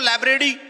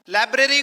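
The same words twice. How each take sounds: First: The word is pronounced with distorted sounds. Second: The word is pronounced with its standard sounds. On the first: The speaker calls it wrong. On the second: The speaker calls it right.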